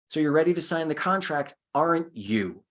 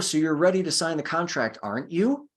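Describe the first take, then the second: First: The voice falls at the end. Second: The voice rises at the end. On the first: The speaker is telling the listener to do it. The speaker calls it right. "A proper tie down, your voice is going to go down" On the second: The speaker sounds unsure and is really asking. The speaker calls it wrong. "And your voice goes up, it makes you sound unsure"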